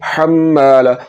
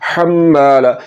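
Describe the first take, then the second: Both takes have the same delivery.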